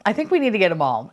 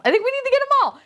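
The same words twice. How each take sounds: First: Said in the usual way. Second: Very high-pitched giddy repeat; excited squeal. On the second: Real, not acted. Collector deciding to buy every set, high giddy squeal.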